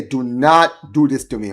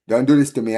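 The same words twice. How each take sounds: First: Slower, leaning hard on "not" in "Do not do this"; stress on not. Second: Said in the usual way. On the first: Real, not acted. Fan pleading with his team, "not" slowly stressed.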